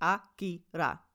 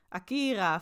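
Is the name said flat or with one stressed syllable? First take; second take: flat; stressed. First: All syllables are short and even, with no stress. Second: One syllable is stressed, as in Dutch. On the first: The speaker calls it right. "Allemaal kort, kort, kort. Dus het is heel plat" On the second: The speaker calls it wrong. "waarin wij van nature in het Nederlands Akira vaak willen zeggen"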